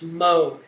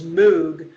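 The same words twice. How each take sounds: First: The vowel sounds like the one in 'mode'. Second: The vowel sounds like the one in 'moo'. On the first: This is the corrected version. The speaker calls it right. "today they've corrected it and it's Moog" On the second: This is the commonly heard version. The speaker calls it wrong. "you'll often hear his name pronounced as Moog"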